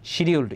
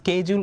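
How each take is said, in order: First: The word begins with an 'sh' sound. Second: The word begins with an 'sk' sound. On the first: This is the American pronunciation. "শিডিউলড is American pronunciation" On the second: This is the British pronunciation. "স্কেজিউল is British pronunciation"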